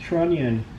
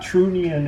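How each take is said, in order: First: It is said like 'trun-yun'. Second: It is said like 'true neon'. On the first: It is the usual English pronunciation. The speaker calls it right. "it's Trunion" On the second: It follows a Spanish reading of the spelling. The speaker calls it wrong. "It's not TrueNeon"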